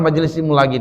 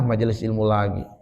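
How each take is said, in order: First: It is said in an eager, impatient tone. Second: It is said in a bored, weary tone. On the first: The listener can't wait for more teaching. The speaker calls it right. "Gak sabaran nih dia mencatat ilmu" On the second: The listener is tired of hearing more teaching. The speaker calls it wrong. "Bosan, ah itu tanda hatinya sakit itu"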